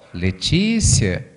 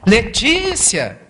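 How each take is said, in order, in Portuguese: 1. O nome é dito um pouco mais alto. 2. O nome é gritado com força. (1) "a vida fala um pouquinho mais alto" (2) "vai lá dar um chacoalhão nela"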